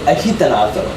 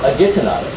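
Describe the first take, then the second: First: The g is said as an h sound. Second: The g is said as a hard g sound. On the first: The speaker calls it right. "It's actually agitanato. So the G is making a H sound here" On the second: The speaker calls it wrong. "it's not actually agitnado or agitanado"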